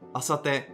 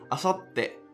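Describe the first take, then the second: First: The syllables run on with no held beat. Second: A short held beat comes before the final syllable. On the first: "without the little tsu would sound like asate" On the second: "take a beat before saying the following syllable"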